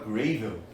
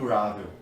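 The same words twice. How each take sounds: First: The word is said with an Australian-style pronunciation. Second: The word is said with a standard pronunciation. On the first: The speaker calls it wrong. "aí eu comecei a falar errado, eu falava gravel" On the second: The speaker calls it right. "não falava gravel"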